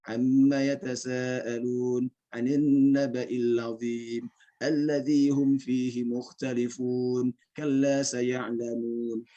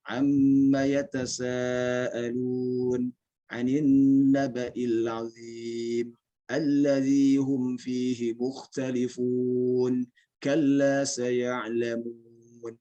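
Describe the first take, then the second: First: It is recited quickly. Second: It is recited at a moderate pace. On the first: "bacanya lebih cepat lagi, sudah masuk ke tingkat bacaan yang hadar" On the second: "Setelah itu baca lebih cepat. Sudah naik ke tadwir"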